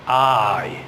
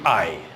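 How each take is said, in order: First: The a is drawn out and the i is weak. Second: The word is said quickly at normal length.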